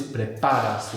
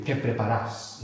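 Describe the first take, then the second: First: "preparas" stressed as pre-PA-ras; penultimate stress. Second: "preparas" as pre-pa-RAS; Argentine final stress. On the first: Teacher gives more standard Spanish, "preparas" stressed before the end. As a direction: put the weight on PA in "preparas". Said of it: "We have the penultimate accent there". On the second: Teacher quotes what you'd hear in Argentina, "preparas" with end stress. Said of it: "that's Argentina". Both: Shown as a demonstration.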